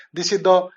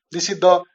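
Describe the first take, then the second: No difference in how they are said.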